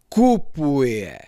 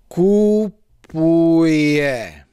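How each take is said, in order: First: The first syllable is stamped with extra force. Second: The first syllable gets no extra force.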